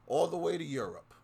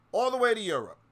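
First: Said in the usual way. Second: Much higher and louder, stressing way; indignant shout. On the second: Real, not acted. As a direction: hurl it out in outrage. Repeats line much louder.

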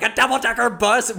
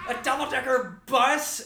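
First: High, incredulous mock yell; imitated yell. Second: High, held-back mock yell; strained high exclamation, softer volume; imitated yell. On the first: Rick reacts to Jonathan's choice of transport, high mock yell. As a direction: exclaim it high, in comic disbelief. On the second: Storyteller mimics the actor's wide-eyed yelling, high but softened mock yell. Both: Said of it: "when he yells".

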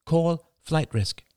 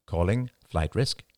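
First: Slow, high, deliberate command; higher, measured words for voice recognition. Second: Slow, measured assistant reply; deliberate automated confirmation; automated phone. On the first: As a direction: enunciate it slowly for a phone. Voice command to the phone. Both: A narrator's reading.

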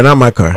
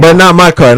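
First: Said in the usual way. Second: 'not' 뒤로 크게 찍어 강조; stress on not. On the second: Real, not acted.

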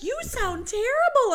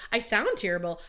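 First: High, loud mock mom exclamation; shocked mom. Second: Said in the usual way. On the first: Mom hearing her daughter's lost voice, high exclamation. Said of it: "She's like". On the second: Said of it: "I'm like".

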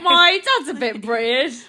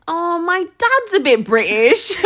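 First: Teasing put-on British accent, higher; mocking British imitation. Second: Slow, lifted, drawn-out explanation; louder, higher, stretched-out reply; self-quote. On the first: Teasing co-host about the reply, mock British accent. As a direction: mimic a friend in hammed-up British. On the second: Retold or imitated. Explaining their accent to someone asking, slow and lilting. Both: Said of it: "You say it like that?".

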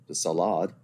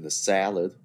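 First: "salad" with stress on the second syllable, suh-LAHD; fancy mispronunciation. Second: Said in the usual way. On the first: Shown as a demonstration. Naming the course after the soup, "salad" mock-fancy as suh-LAHD.

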